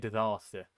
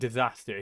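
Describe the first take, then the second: First: A posher, more southern British accent. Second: A less posh, more northern British accent. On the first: This is how someone from further south would say it. "He'll probably say disaster" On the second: This is the speaker's own way of saying it. "I say disaster"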